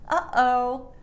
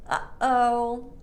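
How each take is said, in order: Both takes have the same delivery.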